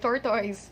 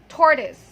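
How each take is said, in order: First: The last syllable has a full 'oi' vowel. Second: The last syllable has a weak schwa vowel. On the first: The speaker calls it wrong. "at first I thought that's also the correct pronunciation of that word" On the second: The speaker calls it right. "the last vowel sound there is a schwa sound"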